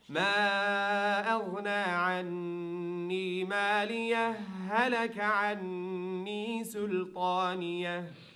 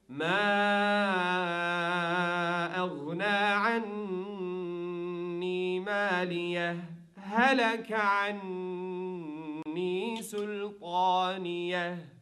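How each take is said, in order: First: It is read without the brief breathless pause. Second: There is a brief pause without a breath.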